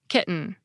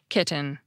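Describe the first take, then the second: First: The middle T is a glottal stop. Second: The middle T is a clear, unaspirated T. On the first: "this time I'll do it with a glottal stop" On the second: "I'll do it with an unaspirated T"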